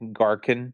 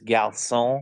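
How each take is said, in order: First: The word is said with an American accent. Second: The word is said with a French accent. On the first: The speaker calls it wrong. "he pronounced it the American way" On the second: The speaker calls it right. "the French word for waiter is garçon"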